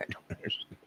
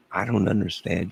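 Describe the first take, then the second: First: Whisper. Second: Said in the usual way. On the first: Real, not acted. Said twice, first whispered.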